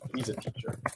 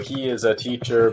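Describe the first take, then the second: First: He and is merge into one short syllable. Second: He and is are said fully and separately. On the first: "becomes he's a teacher" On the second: "he is a teacher becomes he's a teacher"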